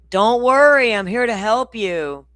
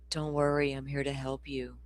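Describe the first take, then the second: First: It is said loudly. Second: It is said quietly.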